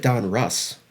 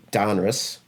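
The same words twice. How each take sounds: First: "Don Russ" with a full "uh" vowel in Russ; like name Russ. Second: "Donruss" stressed on DON, short weak "russ"; common pronunciation. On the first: Host proposing another way, "Don Russ" with a clear, full Russ. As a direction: say "Don Russ" as two names, Russ as in Russell. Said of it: "the name Russ". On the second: Host quoting how people say it, "Donruss" with stress up front. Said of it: "I hear people saying". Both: Shown as a demonstration.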